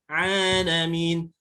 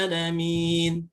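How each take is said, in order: The two takes are said the same way.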